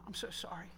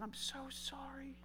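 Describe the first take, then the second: First: Said in the usual way. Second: Soft slow whisper; whispered apology. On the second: Retold or imitated. Father apologizing to his daughter, whispering. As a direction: breathe the apology.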